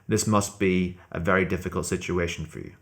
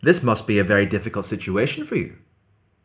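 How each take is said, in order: First: The pitch stays level throughout, like a robot. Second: The pitch rises toward the end of the sentence. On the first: "I'll try and use it in a flat intonation" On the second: "using a rising intonation"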